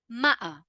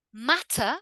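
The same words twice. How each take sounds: First: "matter" as "ma'ah"; throat catch in place of T in "matter"; glottal T. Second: "Matter" with a crisp T; careful "mat-tah"; full T. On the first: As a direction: cut the T in "matter". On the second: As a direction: sound the T fully in "Matter". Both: Shown as a demonstration. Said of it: "in the two different ways".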